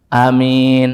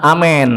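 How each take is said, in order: First: Short first a, long plain vowel in min. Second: The vowel shifts fully into an e sound. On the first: The speaker calls it right. "a-nya pendek, min-nya pan panjang" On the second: The speaker calls it wrong. "bukan amin, bukan begitu, bukan"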